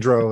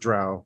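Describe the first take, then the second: First: The word rhymes with crow. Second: The word does not rhyme with crow. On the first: "I say dro, ... it's like crow" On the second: "everybody else says drow"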